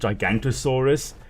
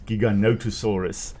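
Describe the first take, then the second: First: It is said gi-gan-to-saurus, with no vowel after gigan. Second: It is said gi-ga-no-to-saurus, with a vowel after gigan. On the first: The speaker calls it wrong. "mispronounced as Gigantosaurus, which isn't a species" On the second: The speaker calls it right. "it's Giganotosaurus"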